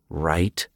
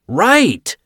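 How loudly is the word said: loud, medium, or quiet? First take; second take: quiet; loud. First: The word is muttered quietly. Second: The word is screamed very loudly. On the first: "he muttered" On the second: "Joe screamed"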